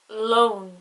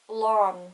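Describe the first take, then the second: First: The o vowel is long and emphasized. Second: The o vowel is short and soft.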